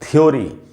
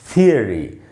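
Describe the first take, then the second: First: The word sounds like 'thyo-ree'. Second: The word sounds like 'thee-uh-ree'. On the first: The speaker calls it wrong. "थ्योरी नहीं बोलना है दोस्तों" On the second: The speaker calls it right. "सही उच्चारण है थियरी"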